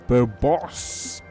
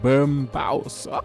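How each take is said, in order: First: The name is said without an M sound. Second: The name is said with an M sound. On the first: The speaker calls it wrong. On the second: The speaker calls it right.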